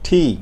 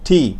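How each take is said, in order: No difference in how they are said.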